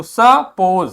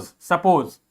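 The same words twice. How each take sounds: First: सपोज stretched as स-पोज, in two slow parts; syllable-by-syllable reading. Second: Said in the usual way. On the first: Shown as a demonstration. Teacher reading out a spelt word, broken into syllables. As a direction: sound out सपोज slowly, syllable by syllable. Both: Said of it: "S U P P O S E".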